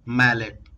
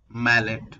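No difference in how they are said.

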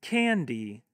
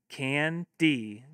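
First: Said in the usual way. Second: Can-D broken into two beats; split into syllables. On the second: Shown as a demonstration. Teacher modelling clapping for kids, can-D in two beats. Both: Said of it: "have your kids clap".

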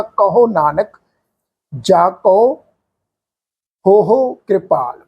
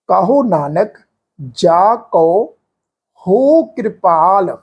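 First: "ਹੋ ਹੋ ਕਿਰਪਾਲ" with ਹੋ said twice; doubled ਹੋ ਹੋ, the common mistake; wrong reading. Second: "ਹੋ ਕਿਰਪਾਲ" with a single long ਹੋ; one drawn-out ਹੋ, slow; correct reading. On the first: Teacher showing the sangat the wrong way, ਹੋ ਹੋ doubled. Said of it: "ਇਸ ਢੰਗ ਨਾਲ ਇਹ ਪਾਠ ਉਚਾਰਨ ਨਹੀਂ ਹੋਣਾ". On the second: Teacher showing the sangat the correct single ਹੋ. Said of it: "ਇਸ ਮੁਬਾਰਕ ਸ਼ਬਦ ਦਾ ਪਾਠ ਇੰਜ ਉਚਾਰਨ ਹੋਏਗਾ". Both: Shown as a demonstration.

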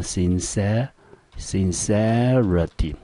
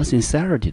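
First: Slow, drawn-out "sincerity", broken into syllables; syllable-by-syllable demo. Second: Said in the usual way. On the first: Shown as a demonstration. Teacher introducing a new word to students, slow syllable demo. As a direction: sound out "sincerity" slowly, holding the middle syllable.

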